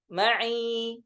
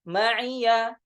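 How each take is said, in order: First: The final ya has no vowel: ma'i. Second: The final ya carries a vowel: ma'iya.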